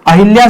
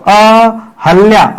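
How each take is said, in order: First: अहिल्या said as a-hil-ya with an i after h; teacher voicing the wrong form अहिल्या; wrong form shown. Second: अहल्या said very slowly as a-hal-ya, no i; teacher slowly giving the correct अहल्या; correct form. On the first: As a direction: model the wrong अहिल्या with the i sound. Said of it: "अहिल्या शब्द नहीं होता है". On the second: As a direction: slowly model the right अहल्या. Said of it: "अहल्या शब्द होता है". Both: Shown as a demonstration.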